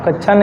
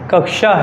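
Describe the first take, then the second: First: The middle cluster is not said as 'ksh'. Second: The middle cluster is said as 'ksh'. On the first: The speaker calls it wrong. "कक्षा नहीं है" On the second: The speaker calls it right. "क्योंकि इसमें दो अक्षर आते हैं, का प्लस सा"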